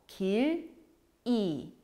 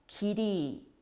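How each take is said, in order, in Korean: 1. 음절이 끊어져서 따로 발음됩니다. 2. 음절이 이어져 읽히며 받침이 뒤 음절로 넘어갑니다. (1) "끊어서 읽어보면" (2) "연결해서 자연스럽게 읽어보면"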